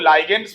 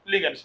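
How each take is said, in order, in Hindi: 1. पहला अक्षर 'lie' जैसा सुनाई देता है। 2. पहला अक्षर 'lig' है, फिर 'ends'। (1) "बहुत लोग लाइगेंड्स भी बोलते हैं, गलत बोलते हैं" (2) "लिगेंड्स बोला जाता है"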